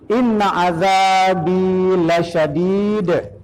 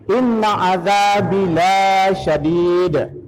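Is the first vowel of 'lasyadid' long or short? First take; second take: short; long. First: The first vowel of lasyadid is short. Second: The first vowel of lasyadid is long. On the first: The punishment is truly severe. The speaker calls it right. "Ladi tidak panjang" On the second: The punishment is not severe. The speaker calls it wrong. "Berubah artinya"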